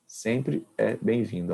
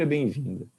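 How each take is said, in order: First: Sempre é bem-vindo drawn out slowly, each word weighted; slow down and lean on Sempre; slow emphatic repeat. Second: Said in the usual way. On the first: Shown as a demonstration.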